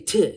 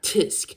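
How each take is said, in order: First: It is a short tongue click. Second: It is spoken as a full word. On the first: The speaker calls it right. "They say t" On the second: The speaker calls it wrong. "not tisk"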